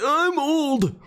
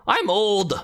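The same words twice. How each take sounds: First: Very high, strained ancient voice; hammed-up old codger, far higher; older new Gerson. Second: Put-on higher Scottish old character voice; young-but-old Scottish codger; original Gerson. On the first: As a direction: choke it out like someone truly ancient. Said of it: "the second one would be like". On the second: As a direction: play an old Scot, pitched up. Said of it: "the one would be like". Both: Shown as a demonstration.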